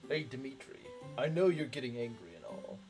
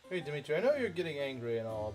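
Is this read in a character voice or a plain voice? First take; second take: character voice; plain voice. First: It is read in a put-on character voice. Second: It is read in the speaker's own plain voice.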